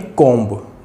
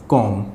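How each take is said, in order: First: The word ends with an audible b sound. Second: The word ends on m with no b sound. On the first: The speaker calls it wrong. "न कि कोम्ब" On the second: The speaker calls it right. "Pronounce किया जाएगा कॉम"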